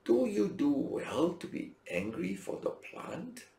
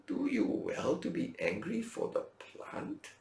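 First: Gentle God. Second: Slow, soft questioning voice; gentle God. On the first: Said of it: "but God said to Jonah". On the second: Preacher repeating God's question to Jonah, slow and soft. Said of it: "And God said to Jonah". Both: Acted. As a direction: ask it gently and slowly.

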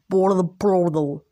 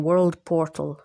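First: Drawn-out, slowed words; odd slow delivery. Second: Said in the usual way. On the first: Real, not acted. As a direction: stretch out world portal oddly. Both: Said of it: "why did I speak like that".

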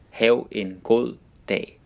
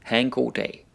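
First: "Hav en god dag" spaced out for learners; careful word-by-word pronunciation. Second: Said in the usual way. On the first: Shown as a demonstration. Phrase repeated slowly, word by word.

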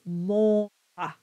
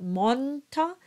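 First: Monta with a rounded nasal O; slow correct monta, nasal O. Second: Monta with an open, unnasalized O; the wrong way: monta without nasal O. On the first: Coach gives the right monta. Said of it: "it's monta". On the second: Coach shows the wrong monta. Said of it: "It's not monta". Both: Shown as a demonstration.

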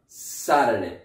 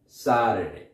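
First: "Saturday" with the first syllable SAT stressed. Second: "Saturday" stressed on SAT, rest falling. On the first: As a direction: lean on the start of "Saturday". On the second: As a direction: hit SAT, let the rest drop. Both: Shown as a demonstration. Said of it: "the stress is where this is on Saturday".

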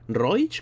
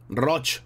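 First: Roich said with a clear "oi" glide, roh-EECH; "Roich" pronounced with the diphthong. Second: Roch said with a single "o" and no glide, ROTCH; "Roch" pronounced with a pure o; Roch with plain o. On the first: Streamer trying out "Roich" for a donor's surname. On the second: Streamer settling on "Roch" for a donor's surname. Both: Shown as a demonstration. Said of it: "Se pronuncia Roch".

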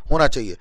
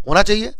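First: "होना चाहिए" low and softer, falling at the end; confirming answer. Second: "होना चाहिए" raised high with a questioning lift; rhetorical question. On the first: Answers his own question with yes. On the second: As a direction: ask "होना चाहिए" as a higher, rising question. Asks himself, then answers yes. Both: Real, not acted.

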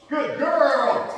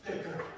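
First: High, sing-song dog praise; squeaky praising a dog. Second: Said in the usual way. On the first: Real, not acted. Excited praise of dog fetching.

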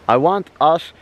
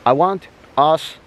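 Both takes have the same delivery.

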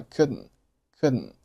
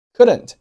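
First: "couldn't" with the final t swallowed; reduced couldn't. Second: Said in the usual way. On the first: Shown as a demonstration. Teacher showing learners connected speech, unreleased t in "couldn't". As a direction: say "couldn't" short, ending on the n. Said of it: "这个单词读成了".

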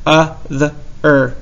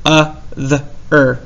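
No difference in how they are said.

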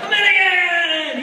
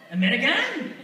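First: Loud, high, drawn-out mock scream. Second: Raised, rising pitch on a questioning "American"; questioning stranger. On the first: Stranger hugging the American tourist, screaming. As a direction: imitate an overjoyed stranger yelling in greeting. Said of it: "wrapped around me screaming". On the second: Retold or imitated. Stranger on the street asking a tourist, questioning. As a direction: imitate a foreign stranger sizing up a tourist.

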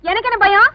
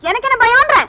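First: Raised-pitch challenge with a rising end; defiant retort. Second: Much higher, insistent challenge, rising end; heated defiant retort. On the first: Woman answering the man who challenged her, defiant. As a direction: throw the question back defiantly. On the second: Woman escalating her challenge to the man, heatedly defiant. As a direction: push the repeated question harder, pitched high. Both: Acted.

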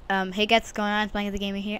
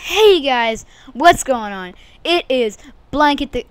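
First: Said in the usual way. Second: Loud, high hype greeting; shouted vlog greeting; hyped intro. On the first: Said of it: "I'm not sure what just". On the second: Acted. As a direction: open the video with big energy. First attempt at intro.

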